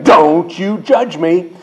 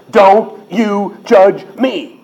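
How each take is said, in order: First: Drawn-out, forceful "Don't you judge me"; slow and insistent, leaning hard on "Don't"; emphatic saying. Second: Each word of "Don't you judge me" punched separately, high and very slow; "Don't you judge me" word by word, higher-pitched and emphatic; stress on every word. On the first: Retold or imitated. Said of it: "What word do you underline for emphasis". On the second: Shown as a demonstration. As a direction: hit all four: DON'T. YOU. JUDGE. ME. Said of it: "They emphasize all four of them".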